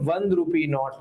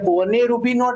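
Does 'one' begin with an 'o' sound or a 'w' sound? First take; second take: w sound; o sound. First: 'One' begins with a 'w' consonant sound. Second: 'One' begins with an 'o' vowel sound. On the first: The speaker calls it right. "શું કહે છે?" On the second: The speaker calls it wrong. "એવું નથી કહેતા"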